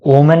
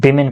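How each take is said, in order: First: वुमेन read with a u sound as in woman; wrong reading. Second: विमेन said with an i sound, wi-men; correct reading. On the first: Teacher showing students the wrong reading वुमेन. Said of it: "वुमेन नहीं पढ़ेंगे हम लोग". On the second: Teacher telling students how to read विमेन correctly. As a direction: give विमेन its i vowel clearly. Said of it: "विमेन पढ़ते हैं". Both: Shown as a demonstration.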